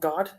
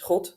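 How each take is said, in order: First: It starts with a hard English G sound. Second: It starts with a raspy sound from the throat.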